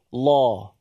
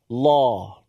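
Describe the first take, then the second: First: The syllable sounds like a full, heavy 'law'. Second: The syllable sounds like a full, heavy 'law'.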